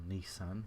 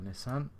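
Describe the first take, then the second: First: It is said the American way. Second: It is said the non-American way.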